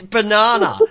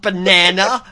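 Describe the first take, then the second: First: BANANA with a broad "ah"; Australian banana. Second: BANANA as ba-NAN-uh, slowly; mock American banana. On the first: Shown as a demonstration. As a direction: insist on "banana" as ba-NAH-na. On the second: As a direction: imitate "banana" with the A of "cat". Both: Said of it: "It's not banana".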